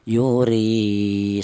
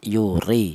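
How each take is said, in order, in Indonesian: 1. Vokal terakhir panjang, dua ketukan. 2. Vokal terakhir pendek, satu ketukan. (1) "dipanjangkan dua harokat atau dua ketukan" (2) "dibaca pendek yaitu satu harokat"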